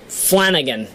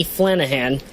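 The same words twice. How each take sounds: First: Said in the usual way. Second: Flanahan with h in place of g; slipped h sound. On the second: Real, not acted. Host misreading a representative's surname, Flanahan with an h. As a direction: say Flanahan as FLAN-uh-han. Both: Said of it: "accidentally say your name that way".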